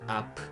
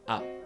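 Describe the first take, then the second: First: The final p bursts out with open lips. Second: The final p stays closed without a burst. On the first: The speaker calls it wrong. "it is not up, up. That is wrong. It is different with P sound in English" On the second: The speaker calls it right. "Keep close your mouth"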